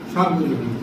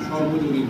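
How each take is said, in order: First: The first syllable is said as long 'saar'. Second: The first syllable is said as short 'sor'. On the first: The speaker calls it wrong. "সার্বজনীন বলে তো কোনো শব্দ নেই" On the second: The speaker calls it right. "সর্বজনীন বলেন"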